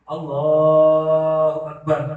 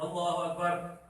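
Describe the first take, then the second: First: It is drawn out and lengthened. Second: It is said quickly and cut short.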